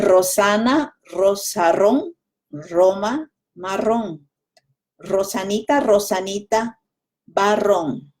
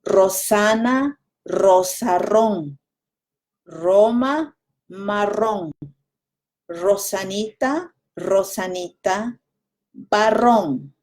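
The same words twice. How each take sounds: First: It is said fast. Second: It is said slowly.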